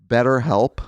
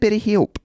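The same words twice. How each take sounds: First: It is said in an American accent. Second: It is said in the speaker's own accent.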